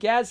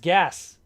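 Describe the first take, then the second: First: The word ends with a z sound. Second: The word ends with an s sound.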